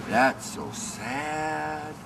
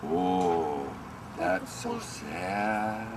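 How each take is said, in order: First: Sung, slow, a bit higher, drawn-out pity; sung, echo the pity, lifting the pitch; mock pity, sung up. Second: Soft, slow, lower pity; mock pity. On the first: Sung, imitating onlookers' pity again, slow and lifted. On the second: Imitating onlookers' pity at the tantrum, slow and soft. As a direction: drag out a sorry sigh. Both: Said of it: "everybody else thinks".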